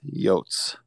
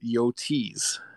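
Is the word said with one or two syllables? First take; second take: one; two. First: The word is said as one short syllable. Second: The word is said with two syllables. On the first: This is how most fans say it. The speaker calls it right. "Just straight, simple, to the point" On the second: This is how a small minority says it. The speaker calls it wrong. "Madman Tyler in 14% who pronounce it"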